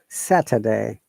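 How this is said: The t sounds like d, with an r sound. The speaker calls it right. "in American English, we say it Saturday"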